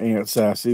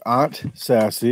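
First: Aunt is said with a short 'a' like 'ant'. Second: Aunt is said with an open 'ah' vowel. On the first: "aunt and uncle" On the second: "Aunt and Aardvark"

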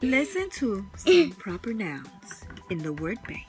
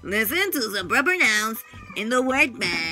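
First: It is read in a normal voice. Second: It is read in a put-on voice.

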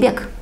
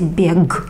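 First: The final sound is a voiceless k. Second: The final sound is a voiced g. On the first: The speaker calls it right. "They will say beg. You will hear k" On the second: The speaker calls it wrong. "no Russian person will say beg"

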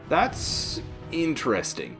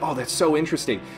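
First: It is said without genuine enthusiasm. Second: It is said with genuine enthusiasm.

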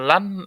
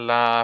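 First: The word ends with an n sound. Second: The word ends with a long a vowel. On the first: The speaker calls it wrong. "লান আর বলা যাবে না" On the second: The speaker calls it right. "লা হয়ে যাবে"

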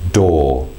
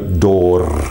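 First: The word ends without an R sound. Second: The word ends with a clear R sound. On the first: The speaker calls it right. "we don't pronounce that final R" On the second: The speaker calls it wrong. "There's no door, there's nothing like that"

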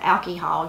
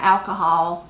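First: The word is said as alky-hall. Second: The word is said as standard alcohol.

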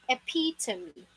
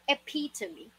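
No difference in how they are said.

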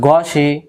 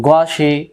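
The two takes are said the same way.

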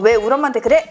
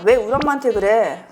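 First: The line ends with strong, pushed force. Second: The line ends with the force let go. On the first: The speaker calls it wrong. "이렇게 하지 말고" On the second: The speaker calls it right. "그냥 감정을 더 전달하는 걸로 생각을 하고 뒤에 힘을 빼고"

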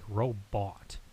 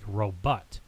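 First: The second syllable has a soft o vowel. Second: The second syllable has a short u vowel. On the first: "others use a softer O" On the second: "some were pronouncing it with a short U"

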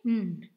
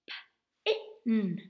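First: The word is blended into one sound. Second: The word is split into separate sounds.

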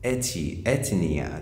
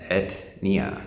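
First: An extra vowel sounds between t and n. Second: The t goes straight into the n. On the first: "They add in the E sound, they add in a vocal sound" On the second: "That's how we use in English, we pronounce this"

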